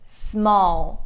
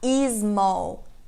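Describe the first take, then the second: First: The word starts directly with the s sound. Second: An extra vowel sound comes before the s. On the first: The speaker calls it right. "Não tem esse i, é só small" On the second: The speaker calls it wrong. "A gente tem mania de falar small"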